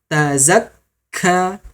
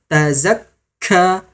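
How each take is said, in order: Both takes have the same delivery.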